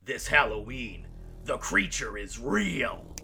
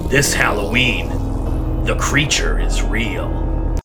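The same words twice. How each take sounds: First: It is said with more energy. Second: It is said with less energy.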